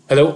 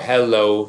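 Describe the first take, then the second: First: The word is said quickly. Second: The word is said slowly.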